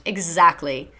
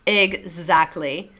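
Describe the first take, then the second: First: Said in the usual way. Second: Exactly stretched out slowly with a rising end; slow knowing Exactly with a lift at the end; slow drawn-out agreement. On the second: Real, not acted. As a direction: draw out Exactly slowly, ending up.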